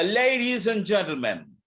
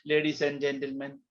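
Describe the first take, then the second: First: It is shouted loudly at high pitch. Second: It is said flatly at normal pitch.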